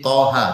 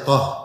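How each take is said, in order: First: It is said in full with two syllables. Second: It is cut short to one syllable. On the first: The speaker calls it right. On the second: The speaker calls it wrong.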